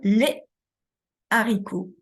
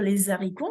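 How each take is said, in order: First: A clean break separates les from haricots. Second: The s of les links into haricots. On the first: The speaker calls it right. "mais on va dire les haricots" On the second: The speaker calls it wrong. "on ne peut pas dire les haricots, on ne va pas faire la liaison"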